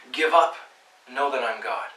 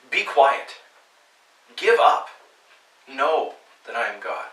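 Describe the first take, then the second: First: A stern order: Give up; firm command. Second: Loud forceful command. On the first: Preacher contrasting God's firm command, loud on Give up. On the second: Preacher voicing God's stern command, loud and forceful. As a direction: bark it as an order from God. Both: Shown as a demonstration. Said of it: "The intonation here isn't like".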